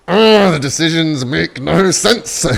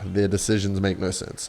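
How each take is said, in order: First: Loud, high, drawn-out wail of disbelief; exasperated outburst. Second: Said in the usual way. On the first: Real, not acted. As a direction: cry out slowly in loud exasperation. Outburst at opponent's baffling move.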